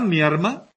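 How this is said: The consonant before m is pronounced as r. "La confusión de la L y la R... ¿cómo está mi arma?"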